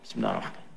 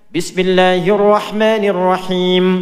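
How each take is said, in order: First: It is said quietly, almost silently. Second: It is said aloud, clearly and loudly.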